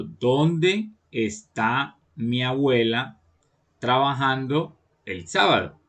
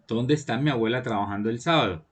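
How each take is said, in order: First: Very slow, drawn-out reading with pauses; "¿Dónde" and "está" stretched out slowly, pausing before "trabajando"; slow dictation pace. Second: Said in the usual way. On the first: Shown as a demonstration. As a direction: spell the question out phrase by phrase for pupils. Teacher reads the example slowly, then repeats.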